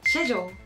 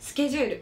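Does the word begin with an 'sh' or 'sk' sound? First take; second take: sh; sk. First: The word begins with an 'sh' sound. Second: The word begins with an 'sk' sound. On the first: "イギリス英語の発音だとシェジュールのように発音されます" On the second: "例えばスケジュール、"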